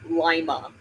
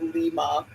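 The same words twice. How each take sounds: First: It is said like the bean name. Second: It is said like the Peru city name. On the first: This is the local name of the town. The speaker calls it right. "like a lima bean" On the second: This is how the city in Peru is named. The speaker calls it wrong. "like Peru"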